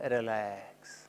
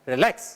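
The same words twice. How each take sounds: First: The word is said in a calm, soothing voice. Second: The word is said in a harsh, disturbing voice. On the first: It helps the listener relax. The speaker calls it right. "It should be soothing relax" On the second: It will not help the listener relax. The speaker calls it wrong. "अगर relax को आप disturbing voice में बोलेंगे तो वो relax नहीं करेगा"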